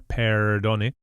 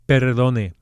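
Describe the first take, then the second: First: The R is a soft English-style R. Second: The R is a single quick tongue tap. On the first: The speaker calls it wrong. "definitely not an English R" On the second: The speaker calls it right. "practice flipping that R"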